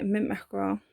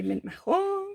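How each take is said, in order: First: Put-on a light French accent on Mint Mackerel; French-tinged colour name. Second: Exaggerated mock French, last syllable held high; playful French accent with a long, raised final vowel. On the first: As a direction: slip lightly into mock French. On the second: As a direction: ham up a French accent and sing out the ending. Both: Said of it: "do a French accent every time".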